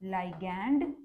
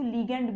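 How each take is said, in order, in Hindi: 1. पहला अक्षर 'lie' जैसा सुनाई देता है। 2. पहला अक्षर 'lee' जैसा सुनाई देता है। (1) "दिस इज लाइगैंड" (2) "कुछ लोग इसको लीगैंड भी प्रोनाउंस करते हैं"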